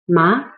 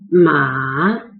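First: The pitch starts mid and rises to high. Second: The pitch dips low and then rises. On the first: Numb, the tongue feeling from a seasoning. "It's a rising tone, so you start with middle level at 3, and then you rise it to 5" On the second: Horse. "There's a transition, lower it and rise it"

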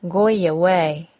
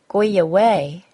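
First: A Y sound links the two words. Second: A Y sound links the two words.

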